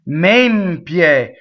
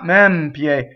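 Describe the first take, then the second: First: The stressed E is a closed vowel. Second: The stressed E is an open vowel. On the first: The speaker calls it right. "closed stress E" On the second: The speaker calls it wrong. "not mempie"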